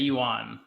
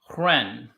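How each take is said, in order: First: The word begins with a Y sound. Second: The word begins with an H-like sound. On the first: This is how Americans say it. "in America, they say yuan" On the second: This is how Chinese speakers say it. "proper way to say it is it's kind of like W R E hren"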